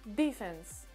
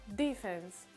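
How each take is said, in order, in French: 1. L'accent est sur la première syllabe. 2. L'accent est sur la première syllabe.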